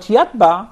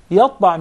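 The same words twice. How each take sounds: First: YATBA with a plain light T. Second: YATBA with a heavy, dark T; emphatic T. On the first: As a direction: say yatba with a thin, unemphatic T. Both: Shown as a demonstration. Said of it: "changing the pronunciation of the letter".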